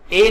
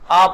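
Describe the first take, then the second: First: The vowel is a long 'ay' sound. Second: The vowel is a short 'uh' sound. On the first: The speaker calls it wrong. "ए नहीं पढ़ते" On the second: The speaker calls it right. "अ पढ़ते हैं"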